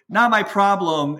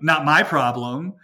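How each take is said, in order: First: It is said in a soft, accepting tone. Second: It is said in a curt, dismissive tone. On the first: The speaker sees the difficulty but accepts it calmly. The speaker calls it right. "as opposed to" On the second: The speaker does not care about the other person. The speaker calls it wrong. "the way that it's sort of come off in the past is like"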